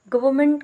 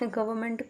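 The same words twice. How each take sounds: First: गवर्नमेंट said as "gavment" with the r and n dropped; mispronounced government. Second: Said in the usual way. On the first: Shown as a demonstration. Teacher shows students' mistake: गवर्नमेंट clipped to "gavment". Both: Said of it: "गवर्नमेंट को बोलेंगे गवर्नमेंट".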